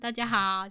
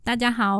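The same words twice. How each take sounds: First: The voice sounds more distant and thinner. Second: The voice sounds close and full. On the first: "20 公分" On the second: "5 公分"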